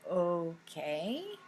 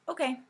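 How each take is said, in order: First: It sounds puzzled and questioning. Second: It sounds like agreement.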